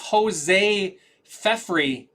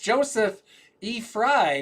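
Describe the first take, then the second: First: The name is split as Jose Fefri. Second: The name is split as Joseph E. Fry. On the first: The speaker calls it wrong. "I used to think it was" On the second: The speaker calls it right. "it's Joseph E. Fry, not Jose Fefri"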